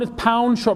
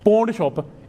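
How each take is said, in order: First: The first word sounds like 'pound'. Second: The first word sounds like 'pawn'. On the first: The speaker calls it right. "it's pound shop, brother" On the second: The speaker calls it wrong. "They say it's not pawn"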